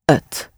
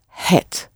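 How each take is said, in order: First: The word begins with a vowel. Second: The word begins with an h sound. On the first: "in everyday colloquial language, it is usually pronounced ut" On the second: "The word for it is het, spelled H-E-T"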